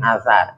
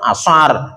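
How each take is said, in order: First: The first consonant is a 'th' sound. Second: The first consonant is a plain 's' sound. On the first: It means a saying of a companion. "Lidahnya keluar dikit" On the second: It means the afternoon prayer. "Kalau enggak pakai lihat"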